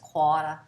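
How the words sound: It is said with the R dropped, New Orleans style. This is how New Orleans Yat speakers say it.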